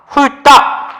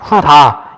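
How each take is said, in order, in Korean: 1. 두 번째 음절은 경음으로 시작해요. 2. 두 번째 음절은 평음으로 시작해요. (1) "근데 발음이 따가 돼야죠" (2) "우리가 훌다 이러진 않잖아요. 훌다. 이상하죠?"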